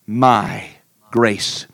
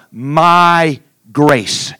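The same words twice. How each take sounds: First: My set apart by a pause, then grace; stress on MY. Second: My punched above grace; stress on MY. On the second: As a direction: hit My hard, drop on grace. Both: Acted. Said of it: "that precious little pronoun".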